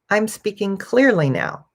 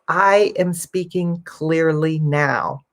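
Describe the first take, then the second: First: Words are contracted and run together smoothly. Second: Each word is said fully and carefully. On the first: "I'm going to say it a little more naturally" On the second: "I can clearly say"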